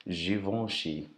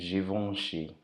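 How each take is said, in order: No difference in how they are said.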